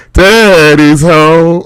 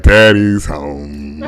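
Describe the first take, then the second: First: High, loud, long-drawn Siri announcement; high drawn-out welcome, mock Siri; Siri greeting. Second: Low, long-drawn imitation of the kids; deep, slow mock greeting; kids' greeting. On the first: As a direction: stretch it out high in a playful Siri impression. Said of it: "Siri's like". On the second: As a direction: drag it out low, mocking the kids. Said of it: "My kids are like".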